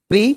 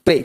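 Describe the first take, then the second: First: प्री said with a long ee, the way not to say it; wrong pre sound. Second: प्रे said with a short e as in pray; correct pre sound. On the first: Teacher shows students the wrong sound, long ee. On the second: Teacher models the right sound for students, प्रे with e. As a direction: model प्रे clearly with the e vowel. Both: Shown as a demonstration. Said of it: "प्री नहीं बोलना है".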